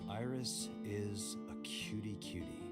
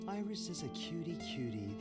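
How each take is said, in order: First: It is said flatly, without feeling. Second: It is said warmly, with feeling.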